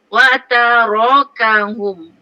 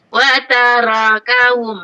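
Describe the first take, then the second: First: The 'ra' sound is heavy and full. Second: The 'ra' sound is light and thin. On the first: The speaker calls it right. "Yang betul" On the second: The speaker calls it wrong. "kalau saya baca nipis contoh eh"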